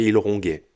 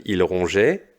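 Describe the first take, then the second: First: Ronguait said with a hard G, not a J sound; wrong form demo. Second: Said in the usual way. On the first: Shown as a demonstration. Teacher showing pupils the forgotten E, ronguait with a hard G. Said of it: "ça fait il ronguait". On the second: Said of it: "Si tu oublies le E".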